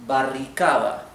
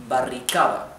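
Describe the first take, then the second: No difference in how they are said.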